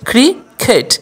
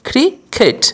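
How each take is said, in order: Both takes have the same delivery.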